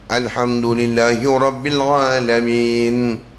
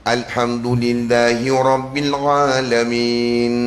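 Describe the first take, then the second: Both takes have the same delivery.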